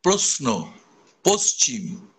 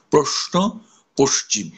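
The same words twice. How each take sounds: First: প্রশ্ন and পশ্চিম with a plain স sound; common pronunciation. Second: প্রশ্ন and পশ্চিম softened for the ear; pleasing pronunciation. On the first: Teacher showing how most people say প্রশ্ন. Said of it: "আমরা অনেকেই বলি". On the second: Teacher giving the ear-pleasing প্রশ্ন. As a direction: say প্রশ্ন, পশ্চিম smoothly for sound's sake. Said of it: "সেই জন্য আমরা তখন বলবো". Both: Shown as a demonstration.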